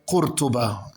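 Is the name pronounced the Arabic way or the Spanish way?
Arabic. The name is said with Arabic pronunciation. "as in Arabic"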